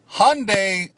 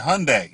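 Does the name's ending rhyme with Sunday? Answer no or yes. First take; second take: no; yes. First: The name does not rhyme with Sunday. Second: The name rhymes with Sunday. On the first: The speaker calls it wrong. "I was saying it wrong" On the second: The speaker calls it right. "Hyundai like Sunday"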